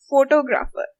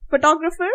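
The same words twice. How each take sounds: First: "photographer" as FOH-TOH-GRAH-fer; every syllable stressed. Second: "Photographer" as fuh-TOG-ruh-fer; English-style stress. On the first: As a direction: spell out each vowel of "photographer" evenly. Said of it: "someone who will say vegetable". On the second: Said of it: "It's the first ones". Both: Shown as a demonstration.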